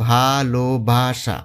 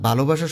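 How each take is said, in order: First: ভালোবাসা drawn out slowly as ভা-লো-বা-সা; ভালোবাসা in four measured beats, each syllable held. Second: Said in the usual way. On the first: Shown as a demonstration. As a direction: break ভালোবাসা into four separate, slow syllables. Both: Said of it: "ভালোবাসা শব্দটিকে ভাঙলে চারটা".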